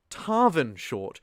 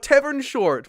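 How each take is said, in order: First: The name is said as Tarvin, with an r. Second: The name is said like the word tavern. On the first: The speaker calls it right. "one more time with gusto" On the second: The speaker calls it wrong. "I keep saying Tavern"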